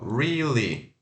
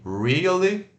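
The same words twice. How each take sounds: First: It has no extra weak vowel after re. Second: It has an extra weak vowel after re. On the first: "tira esse schwa aí do meio" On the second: "re, schwa, a, li, really"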